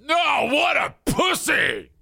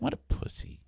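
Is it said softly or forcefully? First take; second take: forcefully; softly. First: It is said forcefully and strongly. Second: It is said softly and casually.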